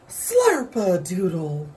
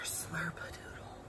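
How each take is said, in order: First: It is said loudly and strongly. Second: It is said in a soft whisper.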